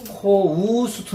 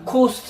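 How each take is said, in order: First: The vowel glides from o to u. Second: The vowel is a plain short o. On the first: The speaker calls it right. "코우스트 느낌으로 해요" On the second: The speaker calls it wrong. "그냥 코스트 이게 아니고"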